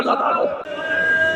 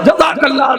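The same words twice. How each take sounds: First: Hushed whisper. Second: Said in the usual way. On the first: Acted. Orator blessing the tale to the mourners in a whisper. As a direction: breathe the blessing, slow and voiceless.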